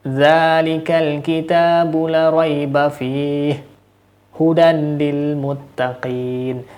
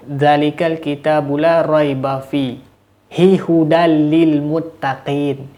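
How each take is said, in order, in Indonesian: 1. Berakhir 'fih', lalu 'hudan' dengan bunyi n. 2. Terpisah 'fi hi', lalu 'hudal' dengan bunyi l. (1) "Seharusnya seperti itu" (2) "tapi si Bapak ini membaca"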